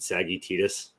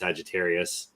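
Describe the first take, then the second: First: The word is said like 'Saggy Titus'. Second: The word is said in its usual form. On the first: The speaker calls it wrong. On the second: The speaker calls it right.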